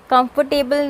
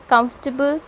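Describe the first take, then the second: First: कंफर्टेबल said in four full syllables, com-for-TAY-bul; spell-it-out कंफर्टेबल; showing the wrong कंफर्टेबल; wrong comfortable. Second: कंफर्टेबल squeezed to three syllables, KUMF-tuh-bul; clipped कंफर्टेबल; modelling KUMF-tuh-bul; correct comfortable. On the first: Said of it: "कंफर्टेबल नहीं". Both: Shown as a demonstration.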